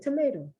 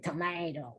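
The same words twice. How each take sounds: First: It is said with an American pronunciation. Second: It is said with a British pronunciation. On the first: "we say tomato" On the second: "we don't say tomato"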